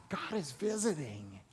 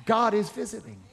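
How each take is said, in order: First: Much softer, hushed restatement; softer repeat. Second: Said in the usual way. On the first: Shown as a demonstration. Preacher repeating the line to coax an amen, hushed. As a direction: drop the volume and let it sink in. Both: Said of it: "Let me say it again".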